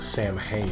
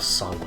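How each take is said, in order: First: It is sounded out letter by letter. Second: It is said with its Irish sounds. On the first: The speaker calls it wrong. "how everybody pronounces it" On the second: The speaker calls it right. "instead of"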